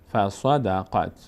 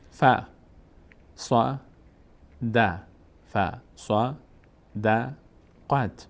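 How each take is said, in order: First: "ف، ص، د، قد" run together as one word; joined-up reading demo. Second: Each of "ف، ص، د، قد" alone with a long pause after it; syllable-by-syllable demo. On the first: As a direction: link "ف، ص، د، قد" without long breaks. («ف، ص، د، قد» پیوسته مثل یک کلمه) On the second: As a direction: separate "ف، ص، د، قد" into single beats. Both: Shown as a demonstration. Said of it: "قاف میچسبه به".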